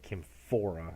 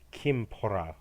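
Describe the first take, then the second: First: The middle consonant is an f sound. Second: The middle consonant is a breathy p sound. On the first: This is the more modern pronunciation. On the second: This is the older, ancient pronunciation.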